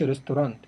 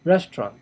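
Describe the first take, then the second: First: "restaurant" with extra vowel, res-tu-rant; mispronounced restaurant. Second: "restaurant" in two beats, rest-rant; correct pronunciation. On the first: Teacher warning learners what not to say, mispronounced restaurant. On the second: Teacher correcting the mistake for learners, correct pronunciation. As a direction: say "restaurant" without the middle vowel: rest-rant. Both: Shown as a demonstration. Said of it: "ما تقولش restaurant".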